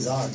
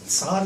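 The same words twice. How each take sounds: First: It is said with a plain English pronunciation. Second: It is said with the native Russian pronunciation. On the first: "but let's say Tsar" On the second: "the correct way they pronounce it"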